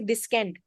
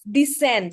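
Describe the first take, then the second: First: A k sound is pronounced in the middle. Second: The c is silent, with no k sound. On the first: The speaker calls it wrong. "We don't say descend" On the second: The speaker calls it right. "And let's descend"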